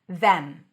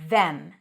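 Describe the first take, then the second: First: It has a full th and clear e vowel. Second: The same.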